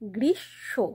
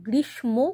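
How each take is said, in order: First: A nasalized sh is heard, with no m. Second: A clear m sound is heard after sh. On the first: The speaker calls it right. "মানে শেষের শটা nasal হবে" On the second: The speaker calls it wrong. "এটা কিন্তু গ্রীষ্ম কখনোই নয়"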